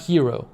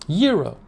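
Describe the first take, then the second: First: The word begins with an H sound. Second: The word begins with a Y sound. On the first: The speaker calls it wrong. "Not hero. I was saying hero" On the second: The speaker calls it right. "Euro. Not hero"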